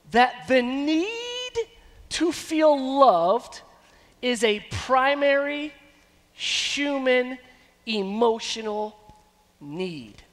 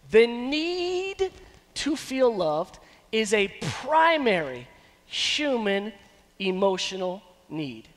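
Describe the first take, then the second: First: Each word set apart, very slow, stress on "need"; slow emphasis. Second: Said in the usual way. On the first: Shown as a demonstration. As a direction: spell it out word by word. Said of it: "slow emphatic repeat". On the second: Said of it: "repeated statement".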